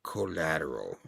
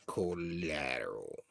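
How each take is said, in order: First: A low, soft murmur. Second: Slow eerie whisper; whispered repeat. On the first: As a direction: mutter it darkly under your breath. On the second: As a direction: whisper it slowly, like a secret. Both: Retold or imitated. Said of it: "And the guy's like".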